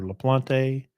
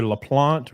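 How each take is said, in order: First: LaPlante said "luh-plon-TAY"; alternative pronunciation. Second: LaPlante said "luh-PLONT", silent final e; alternative pronunciation. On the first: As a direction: say LaPlante in three syllables, ending in "tay". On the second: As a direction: say LaPlante in two syllables, ending on a t. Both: Shown as a demonstration. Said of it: "it's either LaPlante or LaPlante".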